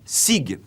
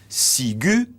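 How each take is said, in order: First: The word ends on the g with no vowel after. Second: The word ends with a 'u' vowel after the g. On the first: The speaker calls it wrong. "et non pas" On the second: The speaker calls it right. "c'est bien un U que l'on entend"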